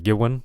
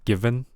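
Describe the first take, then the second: First: The v is made with both lips together. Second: The v is made with teeth on lip. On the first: The speaker calls it wrong. "putting your lips together and going like va va va" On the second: The speaker calls it right. "putting your top teeth on your bottom lip"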